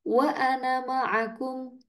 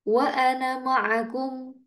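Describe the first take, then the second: No difference in how they are said.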